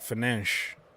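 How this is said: The name is said with Portuguese pronunciation. "in Portuguese they pronounce it like Fernandes"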